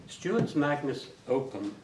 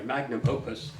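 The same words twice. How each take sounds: First: "magnus opum" said by mistake, letters swapped; garbled Latin "magnus opum"; slip of the tongue. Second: "magnum opus" said cleanly and correctly; plain corrected "magnum opus"; corrected Latin. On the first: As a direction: stumble into "magnus opum" unawares. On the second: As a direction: fix the slip with a careful "magnum opus". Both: Real, not acted. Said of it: "oh, s-, sorry".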